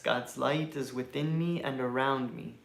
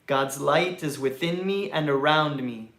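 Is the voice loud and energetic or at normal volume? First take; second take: normal; loud. First: It is said at normal conversational volume. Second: It is said loudly and with high energy. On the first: "in a normal speaking voice" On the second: "repeating after me in a loud, energetic voice"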